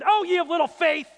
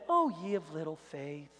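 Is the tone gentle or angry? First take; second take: angry; gentle. First: It is said in an angry, forceful tone. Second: It is said in a gentle, mild tone.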